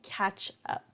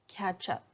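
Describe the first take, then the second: First: The two words are said separately, not fast. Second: The two words are linked together, said fast.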